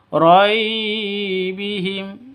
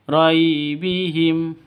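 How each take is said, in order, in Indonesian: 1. Suku kata pertama dipaksakan, disentak, atau dipanjangkan. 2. Suku kata pertama lembut, mulus, dan pendek. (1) "itu salah" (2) "yang betul"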